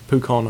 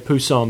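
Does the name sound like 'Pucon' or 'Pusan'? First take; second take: Pucon; Pusan. First: The name is pronounced like 'Pucon'. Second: The name is pronounced like 'Pusan'. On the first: The speaker calls it right. "It's Pucon" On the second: The speaker calls it wrong. "I used to say Pusan"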